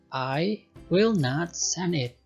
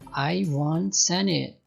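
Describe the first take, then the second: First: The words will not are said in full. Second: The words will not are contracted to won't.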